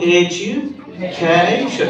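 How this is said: The word is said with a rising-falling wave. The speaker calls it right. "এই যে ঢেউ তুলে হচ্ছে"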